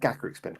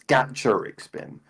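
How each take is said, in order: First: The name begins with a 'gaka' sound. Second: The name begins with a 'gacha' sound. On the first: The speaker calls it wrong. "I know it's not pronounced that way" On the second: The speaker calls it right. "it comes from gacha as in like the gachapon machines"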